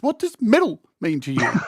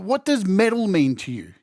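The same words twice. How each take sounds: First: It is said in a special put-on voice. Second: It is said in a normal speaking voice.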